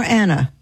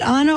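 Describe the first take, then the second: First: "Anna" with the A of "cat"; short-A Anna. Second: "Anna" with an open AH at the start; broad-A Anna. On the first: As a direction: say "Anna" as ANN-uh. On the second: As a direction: say "Anna" as AH-nuh. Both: Shown as a demonstration. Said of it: "Is it Anna or Anna".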